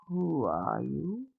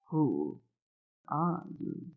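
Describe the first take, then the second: First: Put-on gravelly old woman. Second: Who, pause, are you, each word set apart; slow it down, a clear gap after Who; space after each word. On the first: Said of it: "The gravel in her voice". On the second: Old woman questioning the stranger, spacing each word. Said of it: "she put a space after each word for emphasis". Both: A narrator's reading.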